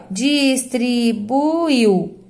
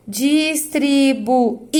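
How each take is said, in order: First: "distribuiu" slowly in syllables, "uiu" glided together at the end; joined final syllable. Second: "Distribuí-lo" slowly in syllables, the Í separate and stressed; isolated I. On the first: Teacher showing the I is not alone, distribuiu ending glided. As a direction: sound out distribuiu without isolating the I. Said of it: "O I não ficou sozinho". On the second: Teacher showing the I stands alone, Í split off and stressed. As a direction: break Distribuí-lo before a strong lone Í. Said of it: "Esse I fica sozinho". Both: Shown as a demonstration.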